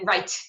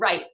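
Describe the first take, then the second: First: The final t is audibly released. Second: The final t is not released. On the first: "T release" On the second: "instead of saying right"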